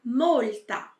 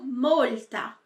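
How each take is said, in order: Both takes have the same delivery.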